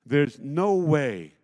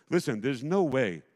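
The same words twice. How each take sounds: First: There's no way slow, loud, each word pressed down; stress on no way. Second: Said in the usual way. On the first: Acted. Pastor insisting the church was impossible, pressed-out stress. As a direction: hammer "there's no way" slowly and loudly. Repeats phrase, builds emphasis.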